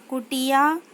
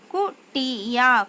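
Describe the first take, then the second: First: Said in the usual way. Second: कुटिया drawn out slowly, syllables apart; slow syllable-by-syllable reading. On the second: Shown as a demonstration. Teacher slowly sounds out कुटिया for pupils. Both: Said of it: "शब्द पढ़ेंगे".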